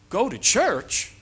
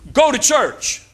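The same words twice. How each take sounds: First: It is said as a questioning, rising request. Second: It is said as a firm, forceful order. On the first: The speaker is asking whether you will go. "it's a question" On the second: The speaker is ordering you to go. "it's a command"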